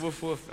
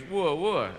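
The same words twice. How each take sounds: First: Woof, woof as an English dog barks, softer; a quiet, clipped Woof, woof. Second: Wooa, wooa as a French dog barks. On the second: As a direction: bark Wooa, wooa like Tintin's Snowy. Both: Retold or imitated. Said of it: "Snowy actually goes".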